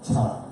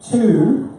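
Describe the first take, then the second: First: The word has a quick, weak vowel. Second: The word has a full, clear vowel. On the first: The speaker calls it right. "we're going to say ta" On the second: The speaker calls it wrong. "we're not going to say to"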